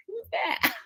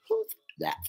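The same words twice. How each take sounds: First: Much higher, cartoonish squeak; squeaky mock voice. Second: Squeaky voice breaking into a laugh; laughing squeak. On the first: Mimicking her reply to the stranger, squeaky voice. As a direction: pipe it up like a startled cartoon. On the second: Retold or imitated. Still mimicking her reply, now laughing. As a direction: giggle through the words in a high squeak. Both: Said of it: "I was just being like".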